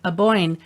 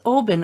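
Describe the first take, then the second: First: The name ends with a 'boyne' sound. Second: The name ends with a 'ban' sound. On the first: The speaker calls it wrong. "we were mispronouncing it because of the way it's spelt" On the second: The speaker calls it right. "Oh no, no, no, that's Oban"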